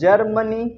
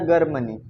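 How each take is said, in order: First: The word starts with a j sound. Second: The word starts with a hard g. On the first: The speaker calls it right. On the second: The speaker calls it wrong. "ये गलत है"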